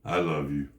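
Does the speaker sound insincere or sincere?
insincere. It sounds cold and insincere. The speaker does not really mean it. The speaker calls it wrong. "What if I went"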